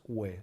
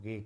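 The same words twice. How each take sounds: First: "ue" said as a w-glide, like gwe; Latin GU sound. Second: "ge" as plain hard geh, no w; Spanish silent u. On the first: Teacher showing Latin G-U-E, u pronounced in "ue". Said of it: "decimos ue". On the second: Teacher showing what not to say, no u heard in "ge". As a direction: say "ge" like gue, the u silent. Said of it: "no decimos ge como en español". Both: Shown as a demonstration.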